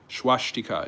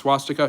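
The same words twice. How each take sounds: First: The word has a German pronunciation. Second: The word has its common English pronunciation. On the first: This is how it is said in German. "is the way to pronounce it in German" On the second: This is how most people say it. "everyone says swastika"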